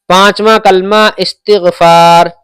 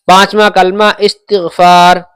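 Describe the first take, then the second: No difference in how they are said.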